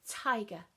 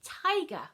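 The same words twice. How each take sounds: First: Tiger said firmly, aspirated t; clear model word. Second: Tiger called out loud and high, falling; loud announcing. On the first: Teacher modelling Tiger for children to repeat, firm. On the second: Teacher unveiling tiger from the sound box, loud and excited. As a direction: reveal tiger like a big surprise. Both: Shown as a demonstration. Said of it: "Can you say".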